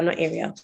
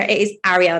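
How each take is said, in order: First: "Ariel" as AIR-ee-el, softer and lower; wrong pronunciation. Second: "Ariel" with open first vowel, "ARR-ee-el"; correct pronunciation. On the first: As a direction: drop down on "Ariel", said like "aerial". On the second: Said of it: "just so you're aware". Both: Retold or imitated.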